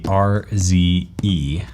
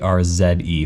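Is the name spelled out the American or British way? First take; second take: American; British. First: The letters are said the American way. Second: The letters are said the British way.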